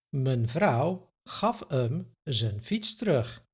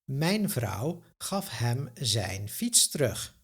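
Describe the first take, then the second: First: The pronouns are reduced to a schwa vowel. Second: The pronouns are said with full vowels.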